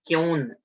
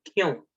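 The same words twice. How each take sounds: First: The final n is pronounced as a full consonant. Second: The final n is only a nasal half sound. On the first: The speaker calls it wrong. "It is not kyun" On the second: The speaker calls it right. "It is kyun"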